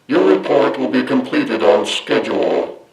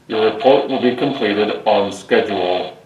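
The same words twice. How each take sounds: First: A strong effect largely masks the natural voice. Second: A weak static effect leaves the natural voice audible. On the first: The speaker calls it right. "the Prime voice helmet is much more effective" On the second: The speaker calls it wrong. "what the Dalek voice changer helmet sounds like without any enhancements"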